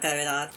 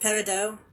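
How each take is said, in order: First: The word is said the plain English way. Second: The word is said the French way.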